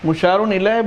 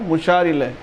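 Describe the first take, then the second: First: An n sound is pronounced after the first word. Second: No n sound is pronounced after the first word.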